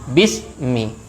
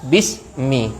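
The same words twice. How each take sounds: No difference in how they are said.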